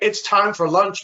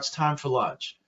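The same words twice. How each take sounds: First: It is said in a commanding voice. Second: It is said in a calm voice.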